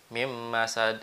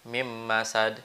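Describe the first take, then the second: Both takes have the same delivery.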